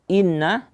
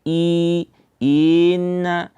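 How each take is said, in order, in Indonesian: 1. Bunyi pembukaannya pendek dan diucapkan dengan jelas. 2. Bunyi pembukaannya diseret dan diulang. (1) "tapi cukup dibaca inna dengan memperjelas bacaan hamzah yang kasrah" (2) "jangan sampai kita seret bacaannya"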